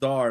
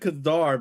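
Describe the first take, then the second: First: The word begins without a k sound. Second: The word begins with a k sound. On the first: The speaker calls it right. "it's actually just Dar" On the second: The speaker calls it wrong. "I said Kadar"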